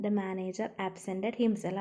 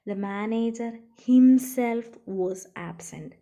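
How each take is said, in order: First: Said in the usual way. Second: Himself punched louder and slow; slow, louder classroom read with himself stressed. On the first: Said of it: "regular ആയിട്ടുള്ള normal ഉപയോഗമാണ്". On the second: Shown as a demonstration. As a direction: hit the word himself hard, read it slowly. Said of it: "അവിടെ ഹിംസെൽഫിന് stress വന്നു".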